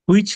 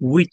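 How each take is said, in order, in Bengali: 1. শব্দটি একটি স্পষ্ট h ধ্বনি দিয়ে শুরু। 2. শব্দটি একটি সাধারণ w ধ্বনি দিয়ে শুরু। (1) "হুইচ না"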